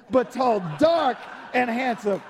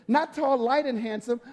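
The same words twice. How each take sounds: First: «tall» called out and «dark» hit louder; stressed tall and dark. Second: Said in the usual way. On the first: Shown as a demonstration.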